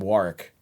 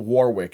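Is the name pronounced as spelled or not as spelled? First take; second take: not as spelled; as spelled. First: The name is pronounced differently from its spelling. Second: The name is pronounced just as it is spelled. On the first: This is how the owner says it. The speaker calls it right. "He pronounces his name Warwick" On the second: This is not how the owner says it. The speaker calls it wrong. "not Warwick, you know, it's spelled"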